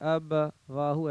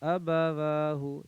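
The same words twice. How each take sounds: First: The two parts are said separately, with a break. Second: The two parts are joined smoothly without a break. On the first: The speaker calls it wrong. "ऐसे नहीं" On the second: The speaker calls it right. "ये लगातार बोलते चलना है"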